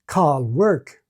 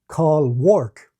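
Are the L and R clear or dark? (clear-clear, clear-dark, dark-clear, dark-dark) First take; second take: clear-clear; clear-dark. First: Both the L and the R sound clear. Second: The L is clear and the R dark. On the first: "in some Caribbean varieties, like in Rhotic Guyana, you can hear clear L and clear R" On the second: "In Ireland, you can hear clear L and dark R"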